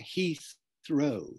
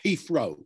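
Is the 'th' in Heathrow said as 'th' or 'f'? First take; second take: th; f. First: It is said with a standard 'th' sound. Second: It is said Cockney-style with an 'f' sound.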